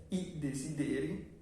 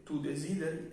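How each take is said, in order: First: "desideri" as de-si-DE-ri; stress on E. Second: "desideri" as de-SI-de-ri; stress on first I. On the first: Teacher explaining the plural noun, desideri stressed on E. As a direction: lean on the DE of "desideri". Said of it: "el acento está en la E". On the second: Teacher explaining you wish, desideri stressed on first I. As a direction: lean on the SI of "desideri". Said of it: "cae en la primera I". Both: Shown as a demonstration.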